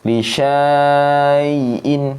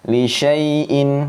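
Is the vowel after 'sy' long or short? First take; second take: long; short. First: The vowel after 'sy' is drawn out long. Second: The vowel after 'sy' is kept short. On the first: The speaker calls it wrong. "nggak boleh gitu" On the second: The speaker calls it right. "tapi langsung"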